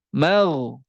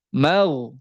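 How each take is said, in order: The two takes are said the same way.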